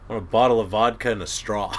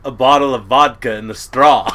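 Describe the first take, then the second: First: Quoting Harold while laughing; can barely hold back a laugh; laughing through a quote. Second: Quoting Harold again, louder and flat-out; loud deadpan repeat. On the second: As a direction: hit the punchline hard. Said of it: "He goes". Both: Retold or imitated.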